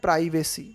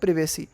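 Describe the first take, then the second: First: The first vowel is long, like in 'prize'. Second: The first vowel is short, like in 'privy'. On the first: "American उच्चारण में इसको पढ़ते हैं प्राइवेसी" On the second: "British जो उच्चारण करते हैं ना हम उसको, उसमें हम पढ़ते हैं प्रिवेसी"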